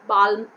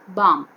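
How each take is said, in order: First: The L sound is pronounced before the M. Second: The L sound is left out entirely. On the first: The speaker calls it wrong. "Balm, wrong" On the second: The speaker calls it right. "L is silent here. We have to say balm"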